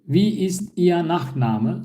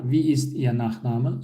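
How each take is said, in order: First: Wie ist Ihr Nachname said slowly, each word clear; slow model question. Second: Said in the usual way. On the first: Shown as a demonstration. (yavaş, net örnek soru) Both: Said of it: "Nachname soyadı demek".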